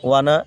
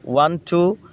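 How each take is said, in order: First: The words blend into one reduced word. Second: Two separate words are said in full.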